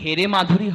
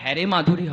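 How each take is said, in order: First: The first vowel is a close e sound. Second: The first vowel is an open ae sound. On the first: "যখন হেরে মাধুরী হবে তার ভাব অর্থটা একরকম হবে" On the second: "আর যখন হ্যারে মাধুরী হবে তার ভাব অর্থটা আরেক রকম হবে"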